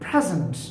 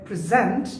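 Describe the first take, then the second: First: It is pronounced the way the noun is said. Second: It is pronounced the way the verb is said. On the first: "noun হিসেবে উচ্চারণ মানে present" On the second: "verb হিসেবে উচ্চারণ হবে present"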